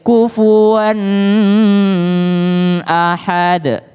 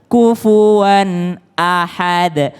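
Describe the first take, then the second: First: The n sound runs straight into 'ahad'. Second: The n sound is kept apart from 'ahad'. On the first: The speaker calls it wrong. "maka dia tidak boleh kufuwan ahad. Enggak" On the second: The speaker calls it right. "Tapi langsung kufuwan ahad"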